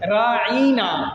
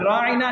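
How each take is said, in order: First: The vowel is drawn out and lengthened. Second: The vowel is said short and plain.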